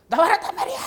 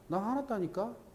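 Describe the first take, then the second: First: It is shouted loudly and angrily. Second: It is said quietly with a cold voice.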